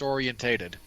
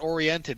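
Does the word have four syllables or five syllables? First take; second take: five syllables; four syllables. First: The word is said with five syllables. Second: The word is said with four syllables. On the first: This is how the British say it. "that's how they pronounce it" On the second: This is the form the British do not use. "it's not oriented"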